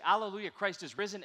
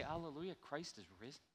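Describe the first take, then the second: First: Exclamation mark. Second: Hushed uncertain question; doubting question. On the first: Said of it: "exclamation mark, woo-hoo". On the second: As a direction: ask it quietly in disbelief. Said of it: "How can that be?". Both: Shown as a demonstration.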